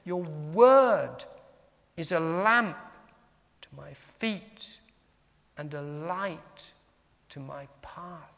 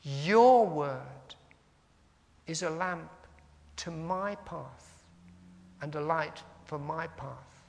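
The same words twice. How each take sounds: First: "word" and "lamp" punched, "feet", "light", "path" set apart; slow phrases landing on "word", "lamp", "feet", "light", "path"; stress on nouns. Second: "Your" and "my" drawn out and leaned on; slow phrases, punch "Your", then stress each "my"; stress on pronouns. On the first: Teacher shows meditating on nouns, stressing "word", "lamp", "feet", "light", "path". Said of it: "Or you can look at the nouns". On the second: Teacher shows congregation how to meditate on pronouns, stressing "Your" and "my". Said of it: "emphasizing the yous, the yours, the my's".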